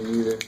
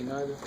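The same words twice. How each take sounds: First: "neither" with a long E in the first syllable. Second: "neither" with an eye sound in the first syllable; long-I neither. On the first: Teacher contrasting two pronunciations for the class, "neither" as NEE-ther. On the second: Teacher giving own pronunciation to the class, "neither" as NYE-ther. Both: Shown as a demonstration. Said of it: "I say neither".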